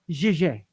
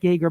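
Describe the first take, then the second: First: The name is pronounced the French way. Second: The name is pronounced the English way. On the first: "but in French it's pronounced Gégé" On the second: "spelling niya like Jaeger, like Jaeger bomb"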